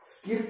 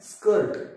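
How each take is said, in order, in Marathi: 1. हा स्वर लहान 'ih' आवाजाचा आहे. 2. हा स्वर 'er' आवाजाचा आहे.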